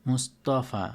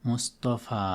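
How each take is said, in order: No difference in how they are said.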